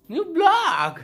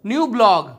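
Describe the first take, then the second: First: "new blog" again way up high in a put-on voice; squeaky high retake. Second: Said in the usual way. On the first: Shown as a demonstration. (ऊँची पतली आवाज़ में "new blog") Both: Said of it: "new blog repeated higher".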